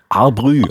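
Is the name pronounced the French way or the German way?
French. The name is said with French pronunciation. "Du wolltest sie französisch aussprechen"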